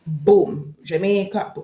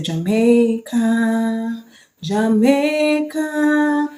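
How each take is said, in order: First: Said in the usual way. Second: "Jamaica, Jamaica" drawn out very slow and higher, sung-out; correct anthem ending. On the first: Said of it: "Don't say". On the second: Shown as a demonstration. Vlogger shows viewers the proper ending, long drawn-out "Jamaica, Jamaica". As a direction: stretch each "Jamaica" long and high. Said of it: "Don't say, "Boom, Jamaica".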